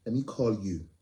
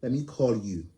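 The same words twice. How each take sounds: The two takes are said the same way.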